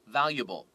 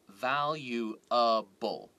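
First: It is said quickly with syllables squeezed together. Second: Every syllable is said slowly and fully. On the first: "when a native English speaker says valuable very quickly" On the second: "you don't hear valuable"

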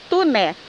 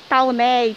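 First: The first syllable sounds like 'tu'. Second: The first syllable sounds like 'tau'. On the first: The speaker calls it right. "É Tuné" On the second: The speaker calls it wrong. "Não vai me falar errado com o seu grupo, falar Tauné"

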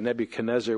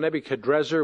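First: An N sound comes before the ending. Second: An R sound comes before the ending. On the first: This is the familiar form from the Hebrew transliteration. "we're also used to the Nebuchadnezzar" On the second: This is closer to the original Chaldean name. "is actually probably the more accurate pronunciation"

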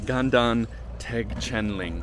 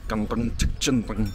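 First: It is said plainly, without throaty sounds. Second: It is said throatily with harsh consonant sounds. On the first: This is how a foreign reader would say it. "if I was reading the name of this monastery, I would say" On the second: This is how a local speaker says it. "It's like very throat pronounced. It's like a lot of consonant sounds"

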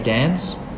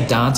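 First: The vowel is short, as in 'cat'. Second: The vowel is long, as in 'father'. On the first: It is the ordinary everyday way. "we use American pronunciation like we say dance" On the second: It sounds posh. "Sometimes if I say dance, I feel posh"

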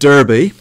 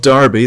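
First: It is pronounced unlike the English town name. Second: It is pronounced like the English town name. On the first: This refers to the ancient city. The speaker calls it right. "but Derby" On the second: This refers to the town in England. The speaker calls it wrong. "Not Derby, that's in the north of England"

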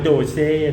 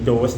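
First: It is said with two syllables, doh-seh. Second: It is said with an oh vowel, dose. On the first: The speaker calls it wrong. "อย่าอ่านว่าโดเซ่นะฮะ" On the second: The speaker calls it right. "อันนี้เป็นโดส"

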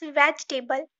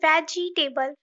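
First: The word has three syllables. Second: The word has four syllables. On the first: The speaker calls it right. "It's vegetable" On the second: The speaker calls it wrong. "Don't say vegetable"

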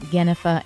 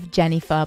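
First: The name is said in an alternative pronunciation. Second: The name is said in its usual pronunciation. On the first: This is how someone else says the name. "Lancelot likes to pronounce my name" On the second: This is how the name's owner says it. "instead of"

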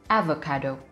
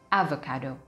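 The two takes are said the same way.

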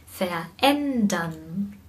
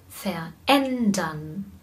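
Both takes have the same delivery.

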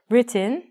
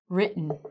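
First: The T and the vowel after it are fully pronounced. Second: The T and the vowel after it are dropped. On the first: The speaker calls it wrong. "We don't say written, I do" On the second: The speaker calls it right. "but we actually say written"

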